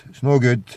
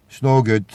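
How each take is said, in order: Both takes have the same delivery.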